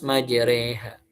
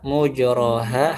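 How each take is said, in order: First: The first vowel is a, then a tilted e. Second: The first vowel is u, with plain a after. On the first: This is another reciter's reading. "Hafaz majreha" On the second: This is one reciter's reading. "Syu'bah mujraha"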